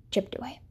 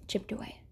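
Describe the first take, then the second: First: Said in the usual way. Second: Much softer, almost whispered; hushed refrain. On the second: Shown as a demonstration. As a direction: let the words fall away to a whisper. Repeated refrain, plain then hushed.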